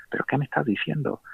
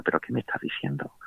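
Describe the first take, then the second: First: Astonished, higher. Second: Stunned whisper. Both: Retold or imitated. Salió del confesionario con las manos en la cabeza.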